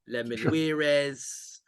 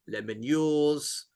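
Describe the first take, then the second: First: The name ends with an extra 'ez' syllable. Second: The name ends with a 'yours' sound. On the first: "it's a bit Spanish, isn't it?" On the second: "it's definitely not that"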